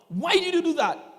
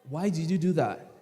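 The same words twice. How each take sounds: First: It is said in a stern, severe tone. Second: It is said in a mild, gentle tone. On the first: The child is frightened and takes it seriously. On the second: The child is not afraid and keeps misbehaving.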